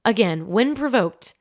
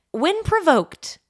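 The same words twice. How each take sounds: First: Said in the usual way. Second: When provoked drawn out high and slow; slow emphatic phrase. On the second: Shown as a demonstration.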